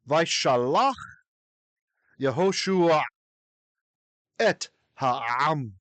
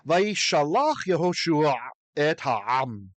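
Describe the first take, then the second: First: It is read slowly. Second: It is read at normal speed.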